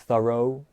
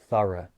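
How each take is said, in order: First: The final vowel is said with rounded lips. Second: The final vowel is a relaxed, unrounded schwa. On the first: The speaker calls it wrong. "I don't say thorough, borough, and move my lips" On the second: The speaker calls it right. "I just release it into a lazy schwa sound"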